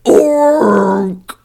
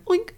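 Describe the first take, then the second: First: A distorted, demonic-sounding pig oink. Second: A plain, ordinary pig oink. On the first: The pig is possessed by a demon. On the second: The pig is not possessed.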